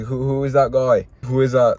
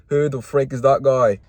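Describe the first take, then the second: First: A bad, hammed-up Irish accent on who is that guy; badly faked Irish brogue, a little louder; terrible McGregor accent. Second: Said in the usual way. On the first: Mocking a newcomer in a bad Irish accent. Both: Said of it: "That was a terrible McGregor accent".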